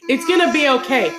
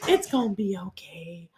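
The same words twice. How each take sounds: First: It is said in a tough, brushing-off way. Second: It is said gently and lovingly.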